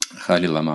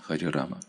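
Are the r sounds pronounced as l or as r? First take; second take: l; r. First: The r sounds are replaced with l. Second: The r sounds are pronounced as clear r. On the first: The speaker calls it wrong. "в речи им сложно вот перестроить свой язык" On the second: The speaker calls it right. "Как «Хари Кришна», «Хари Рама»"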